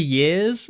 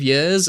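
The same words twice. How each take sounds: First: It is said in a more standard accent. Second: It is said in a West Midlands accent. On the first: The way other people expected it to be said. "I tried to say years instead of years" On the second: The speaker's own natural way of saying it. "instead of years"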